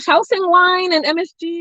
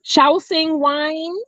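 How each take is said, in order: First: Said in the usual way. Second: Shaoxing said slowly, SHAO-SHING, rising at the end; careful pronunciation. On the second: Shown as a demonstration. Reading a viewer's comment aloud, sounding out Shaoxing.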